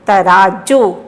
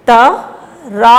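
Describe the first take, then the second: First: "तराजू" joined up with a long final "जू"; blended with stress. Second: "तराजू" slowly in separate syllables, long "जू"; sounding out. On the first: Teacher blending the word for children, stressed. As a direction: blend "तराजू", still holding the long vowels. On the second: Teacher leading children to repeat, sounded out. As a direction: break "तराजू" apart and stretch each piece. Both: Shown as a demonstration. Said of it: "जोर दे के बोलना".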